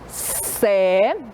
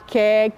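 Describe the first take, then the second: First: The syllable begins with a soft s sound. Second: The syllable begins with a hard k sound. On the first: The speaker calls it right. "A família silábica do C é assim" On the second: The speaker calls it wrong. "A gente não fala"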